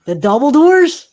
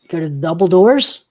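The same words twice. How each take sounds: First: Loud, high incredulous question; mock incredulous. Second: Rising question, louder on DOORS; questioning confirmation. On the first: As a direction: question their choice with theatrical disbelief. Game master doubts players' choice, escalating. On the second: Pretend. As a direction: check the choice, voice climbing on "doors". Game master double-checks players' choice.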